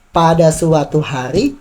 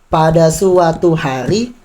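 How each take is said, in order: First: Every syllable gets equal, even timing. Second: Every syllable gets equal, even timing.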